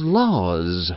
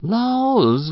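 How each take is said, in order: First: Sighing laws. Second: A high rising cry of laws; old farm wife's high startled cry. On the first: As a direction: let it fall away with a sigh. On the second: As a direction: gasp it out up high in dismay. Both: Acted. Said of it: "sighed Missus Race".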